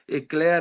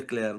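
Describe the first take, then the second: First: The name is said with a local Brazilian pronunciation. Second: The name is said with its original pronunciation. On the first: This is how local people adapted the name. The speaker calls it wrong. "a adaptação, às vezes, que você imagina falando aqui" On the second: This is how the name is really pronounced. The speaker calls it right. "a pronúncia seria Eclair"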